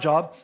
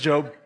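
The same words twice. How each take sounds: First: The vowel sounds like the one in 'hot'. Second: The vowel sounds like the one in 'go'. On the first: It sounds like the word for work. The speaker calls it wrong. "It is not Job" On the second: It is the proper name from the Bible. The speaker calls it right. "It is Job"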